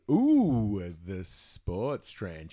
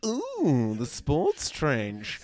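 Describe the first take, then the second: First: Slow, low, drawn-out tease; a hint of a sultry radio sweeper; saucy sweeper voice. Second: Slow, drawn-out tease; lightly imitating a sultry radio sweeper; saucy sweeper voice. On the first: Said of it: "where it goes". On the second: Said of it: "Rangers went".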